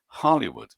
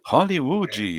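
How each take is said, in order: First: It is said with an English pronunciation. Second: It is said with a Brazilian Portuguese pronunciation. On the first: This is how the word should sound in English. "com o som que ela deveria ter em inglês" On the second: This is how everyone around said it. "como todo mundo falava"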